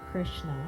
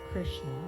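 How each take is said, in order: The two takes are said the same way.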